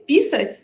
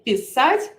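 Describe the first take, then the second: First: The stress is on the first syllable. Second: The stress is on the last syllable. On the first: It means to pee. "if you put the stress like on the first part" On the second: It means to write. "like on the last part of the verb"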